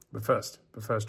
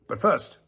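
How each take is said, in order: First: Said in the usual way. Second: Louder but first. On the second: Shown as a demonstration. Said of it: "but first, but first, chat".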